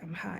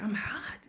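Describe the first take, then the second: First: It is said quietly, muttered. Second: It is said loudly.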